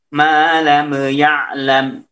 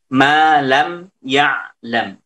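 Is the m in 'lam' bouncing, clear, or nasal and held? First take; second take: bouncing; clear. First: The m ends with a small bouncing echo. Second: The m is short and clear, without hum. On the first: The speaker calls it wrong. "itu mantul" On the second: The speaker calls it right. "harus dibaca dengan jelas. Jangan ada dengung"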